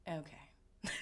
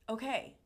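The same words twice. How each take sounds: First: It sounds sarcastic and doubtful. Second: It sounds sincere and accepting.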